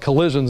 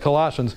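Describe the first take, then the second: First: The word sounds like the word 'collisions'. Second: The word has its usual 'Colossians' pronunciation. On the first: "I call it Colossians" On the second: "instead of Colossians"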